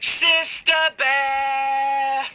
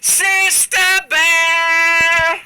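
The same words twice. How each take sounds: First: It is called at a moderate volume. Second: It is called louder than before.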